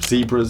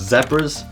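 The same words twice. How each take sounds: First: It is said with an American pronunciation. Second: It is said with a non-American pronunciation.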